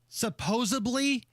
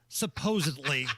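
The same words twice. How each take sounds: First: It is said with a B sound before -ly. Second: It is said with a D sound before -ly. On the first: The speaker calls it wrong. "When people say supposedly instead of" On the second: The speaker calls it right. "instead of supposedly"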